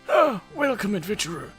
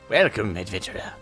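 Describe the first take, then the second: First: It is said in a put-on character voice. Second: It is said in the speaker's own voice.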